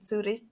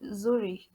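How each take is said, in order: First: The name is pronounced the German way. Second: The name is pronounced the English way. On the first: "I'm pronouncing it in German" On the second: "How do you say that in English?"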